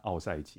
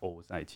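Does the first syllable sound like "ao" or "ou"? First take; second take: ao; ou. First: The first syllable is pronounced "ao". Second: The first syllable is pronounced "ou". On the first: The speaker calls it wrong. "我常常会不小心讲成奥塞奇" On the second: The speaker calls it right. "也要讲欧塞奇"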